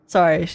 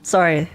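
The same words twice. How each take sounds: The two takes are said the same way.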